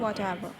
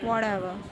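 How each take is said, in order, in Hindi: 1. बीच का व्यंजन स्पष्ट t की आवाज़ है। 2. बीच का व्यंजन नरम d जैसा लगता है। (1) "ਬ੍ਰਿਟਿਸ਼ ਬੋਲਣਗੇ" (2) "ਅਮੈਰੀਕਨਸ ਬੋਲਣਗੇ"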